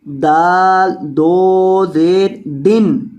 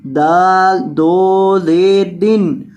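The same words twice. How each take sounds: The two takes are said the same way.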